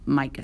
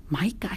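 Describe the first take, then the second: First: "Mica" as a settled, low statement; confirming answer. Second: "Mica" softly, rising as a question; disbelieving question. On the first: Papa confirming to his son, "Mica" as settled answer. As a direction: repeat "Mica" firmly without any rise. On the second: Boy finds it hard to believe, "Mica" rising softly. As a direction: query "Mica" softly with the pitch lifting. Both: A narrator's reading.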